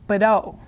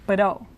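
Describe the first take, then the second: The two takes are said the same way.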